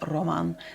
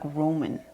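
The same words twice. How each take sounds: First: The name is said with non-English pronunciation. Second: The name is said with English pronunciation. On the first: The speaker calls it right. "it's actually Roman" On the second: The speaker calls it wrong. "in English you would say like Roman"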